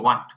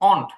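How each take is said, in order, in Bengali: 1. এটা আমেরিকান উচ্চারণে বলা হয়, w-এর শব্দ সহ। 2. এটা ব্রিটিশ উচ্চারণে বলা হয়, w-এর শব্দ ছাড়া। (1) "আমেরিকানরা মূলত ওয়ান্ট বলে" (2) "ব্রিটিশ উচ্চারণ হচ্ছে অন্ট"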